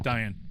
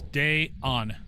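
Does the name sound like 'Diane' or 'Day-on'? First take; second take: Diane; Day-on. First: The name sounds like 'Diane'. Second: The name sounds like 'Day-on'. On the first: The speaker calls it wrong. "I don't think it is Diane" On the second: The speaker calls it right. "I looked up the pronunciation of the ghost, and it's Day-on"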